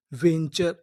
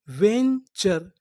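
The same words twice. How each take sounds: First: Said in the usual way. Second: Very slow; slow drawn word. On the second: Shown as a demonstration. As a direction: stretch venture out for learners. (धीरे खींचकर बोलना) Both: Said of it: "पूरी meaning".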